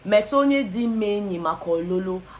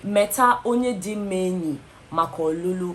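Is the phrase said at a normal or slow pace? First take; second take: normal; slow. First: The phrase is said at a normal pace. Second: The phrase is said very slowly.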